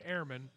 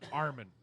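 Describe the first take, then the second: First: The word is pronounced in the standard way. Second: The word is pronounced in a mangled way. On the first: The speaker calls it right. "instead of saying airman" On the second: The speaker calls it wrong. "he says Armin"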